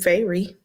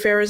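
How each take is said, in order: First: The name sounds like 'Fairy', ending in 'ee'. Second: The name sounds like 'Farrah', ending in 'uh'. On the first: This is how a reader wrongly imagined it. The speaker calls it wrong. "wasn't Fairy" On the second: This is how the name is really said. The speaker calls it right. "Farrah's name"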